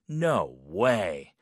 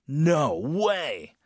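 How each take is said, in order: First: It sounds doubtful and disbelieving. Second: It sounds shocked and very strong.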